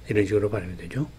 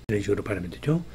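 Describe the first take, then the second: No difference in how they are said.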